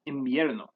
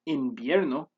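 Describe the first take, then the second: First: The first nasal is an m sound. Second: The first nasal is an n sound. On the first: The speaker calls it right. "Spanish speakers pronounce this as invierno" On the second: The speaker calls it wrong. "Instead of pronouncing it with an N as invierno"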